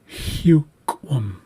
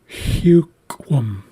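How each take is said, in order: No difference in how they are said.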